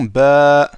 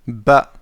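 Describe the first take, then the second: First: The vowel is drawn out long. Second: The vowel is said short.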